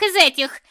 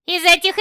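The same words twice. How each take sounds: First: "из этих" punched on "из", falling; stress on из. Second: "Из этих" with a rising end on "этих"; rising first take. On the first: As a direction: hit "из" hard, then drop. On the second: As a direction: toss "Из этих" up high, rising on "этих". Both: Acted. Witch answering, repeating.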